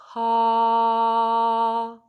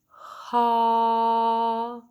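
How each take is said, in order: First: The vowel starts with a puff of breath. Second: The same.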